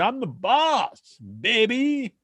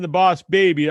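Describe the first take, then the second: First: There is a pause before baby. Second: It is said without a pause before baby.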